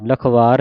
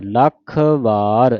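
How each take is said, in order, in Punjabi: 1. ਦੋਵੇਂ ਸ਼ਬਦ ਦੋਹਰੇ ਵਿਅੰਜਨ ਤੋਂ ਬਿਨਾਂ ਆਪਸ ਵਿੱਚ ਜੁੜੇ ਹੋਏ ਹਨ। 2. ਪਹਿਲੇ ਸ਼ਬਦ 'ਤੇ ਪੱਕਾ ਜ਼ੋਰ ਹੈ, ਫਿਰ ਵੱਖ ਕੀਤਾ ਜਾਂਦਾ ਹੈ। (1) "ਲਖਵਾਰ ਨਹੀਂ ਕਹਿਣਾ" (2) "ਲੱਖ ਪੂਰਾ ਕੱਸ ਕੇ ਬੋਲ ਕੇ ਫਿਰ ਵਾਰ ਪੜ੍ਹਨਾ ਹੈ"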